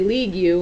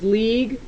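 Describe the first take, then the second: First: The word ends with an added 'you' sound. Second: The word ends plainly with a g sound. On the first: The speaker calls it wrong. "we don't say league you" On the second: The speaker calls it right. "This is league"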